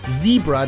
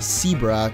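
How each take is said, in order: First: The first sound is a clear buzzing z. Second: The first sound is closer to an s. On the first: The speaker calls it right. "Zebra, not" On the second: The speaker calls it wrong. "because sometimes I can't say my Z's properly"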